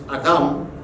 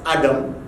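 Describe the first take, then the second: First: The name is said with a Hebrew pronunciation. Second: The name is said with an English pronunciation. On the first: "Hebrew is Adam, A D H A M" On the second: "what we call in English pronounced as Adam"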